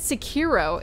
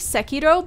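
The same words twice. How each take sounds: First: The word is said with an English pronunciation. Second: The word is said with a Japanese pronunciation. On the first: This is how most people say it. The speaker calls it wrong. "everyone says Sekiro" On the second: This is the original way to say it. The speaker calls it right. "It's actually Sekiro"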